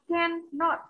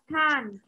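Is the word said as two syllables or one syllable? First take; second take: two syllables; one syllable. First: The full form is said with two syllables. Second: The short form is said as one syllable. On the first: "Giờ từ này chúng ta sẽ đọc là cannot" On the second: "viết tắt của nó thì chúng ta sẽ đọc là can't"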